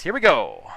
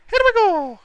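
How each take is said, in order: First: Said in the usual way. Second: High, loud excited call. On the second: Real, not acted. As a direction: shout it with sudden excitement. Excited repeat at start.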